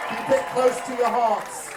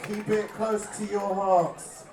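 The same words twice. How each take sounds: First: Loud, high "Keep it close to your hearts" preached at the crowd; mock sermon. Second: Slower "Keep it close to your hearts" softened by laughter; laughing repeat. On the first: Singer urging the crowd to keep faith, loud preaching. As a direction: proclaim "close" with full preacher force. Rallying crowd, then repeats softer. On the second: Acted. Singer repeating the line to the crowd, slowed and laughing. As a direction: let the preacher act crack into a laugh.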